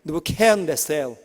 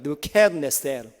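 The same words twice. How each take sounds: First: The last syllable is pronounced 'sel'. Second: The same.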